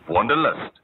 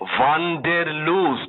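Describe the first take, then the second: First: It is said with an English-style 'lust' ending. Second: It is said with a German-style 'loost' ending.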